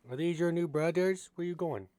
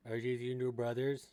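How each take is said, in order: First: Pet talk. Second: Said in the usual way. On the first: Real, not acted. Owner cooing at her pet rat about his new brothers.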